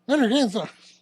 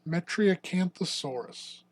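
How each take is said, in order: First: The name is said quickly and sped up. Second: The name is said slowly and drawn out. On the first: "Now say it at one point five speed" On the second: "Say that slower"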